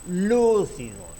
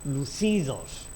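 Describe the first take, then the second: First: The stress is on the first syllable. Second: The stress is on the second syllable.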